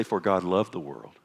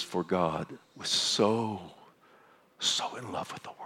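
First: Said in the usual way. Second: Hushed, lingering on so. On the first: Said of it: "it doesn't say". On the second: Shown as a demonstration. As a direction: lean on so and let it drop to a breath. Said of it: "He says".

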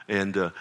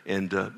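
Both takes have the same delivery.

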